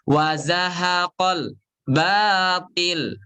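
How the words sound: The sound is cut off before the article. The speaker calls it wrong. "Ini yang salah tuh begini"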